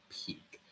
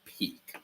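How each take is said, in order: First: Whispered echo of the word. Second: Said in the usual way. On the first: Real, not acted. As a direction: breathe the word back as a whisper.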